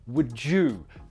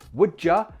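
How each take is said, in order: First: The word 'you' is fully pronounced. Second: The word 'you' is reduced to 'ya'. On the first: "to would you, particularly if you're focused on that person" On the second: "you can change would ya"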